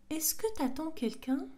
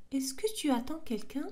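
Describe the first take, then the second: First: "t'attends" with tu elided into one word; casual contraction. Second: "tu attends" with both words said in full; full form. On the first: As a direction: drop the u in "t'attends". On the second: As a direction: keep "tu" whole before "attends". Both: Shown as a demonstration.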